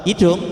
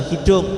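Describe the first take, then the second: The two takes are said the same way.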